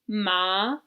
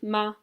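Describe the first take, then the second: First: The pitch rises upward. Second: The syllable is short and light. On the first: It means numb. "The second tone in Chinese goes up" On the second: It marks a question. "a neutral tone, which is just like very light"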